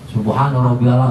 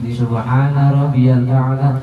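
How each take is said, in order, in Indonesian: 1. Frasa itu diucapkan cepat dan terburu-buru. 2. Frasa itu diucapkan pelan dan tenang. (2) "jangan jangan buru-buru"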